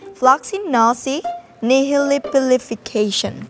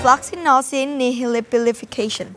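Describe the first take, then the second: First: It is said slowly. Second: It is said at normal speed.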